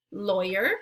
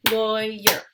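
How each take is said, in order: First: Said in the usual way. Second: "Lawyer" split into two loud beats, LAW-YER; syllable-by-syllable, louder; clapped syllables. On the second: Shown as a demonstration. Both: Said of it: "break it into the two syllables".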